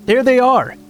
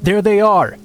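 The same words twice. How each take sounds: First: Shrill triumphant yell, pitched way up; high yelling. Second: Yelling. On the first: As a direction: shriek it out, higher still. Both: Acted. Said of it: "started yelling".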